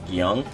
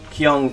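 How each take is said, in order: First: The word begins with a soft G sound. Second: The word begins with a hard K sound. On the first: This is the actual Korean pronunciation. The speaker calls it right. "actually pronounced Gyung, because that's a soft G or a soft K" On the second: This is the form used in a video game. The speaker calls it wrong. "the pronunciation for what they use in Soul Edge"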